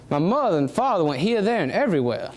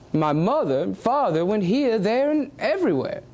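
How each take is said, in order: First: The same sentence in a gentle Southern lilt. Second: Aristocratic English accent. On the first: Showing how the South says it today, in a Southern lilt. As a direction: let it roll with a Southern American lilt. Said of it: "what we know today as the Southern lilt". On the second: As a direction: speak it like old aristocratic England, taking your time. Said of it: "specifically aristocratic England". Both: Shown as a demonstration.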